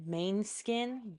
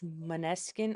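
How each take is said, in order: First: The first syllable sounds like 'main'. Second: The first syllable sounds like 'mahn'. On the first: The speaker calls it wrong. "I thought it was called Beggin' by Mainskin" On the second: The speaker calls it right. "but it's Maneskin"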